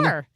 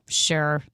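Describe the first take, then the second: First: It sounds bright and enthusiastic. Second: It sounds flat and unenthusiastic.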